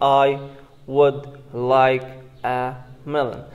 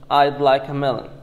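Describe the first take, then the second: First: 'Would' is said in full as a separate word. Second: 'Would' is contracted into a quick 'I'd'. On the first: "say it I would like a melon" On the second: "let's make it quickly. In rapid connected speech"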